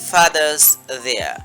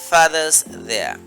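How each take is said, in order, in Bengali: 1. 'w' উচ্চারণ বাদ যায় এবং 'was', 'father'-এর সাথে জুড়ে যায়। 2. 'w' উচ্চারণ বাদ যায় এবং 'was', 'father'-এর সাথে জুড়ে যায়।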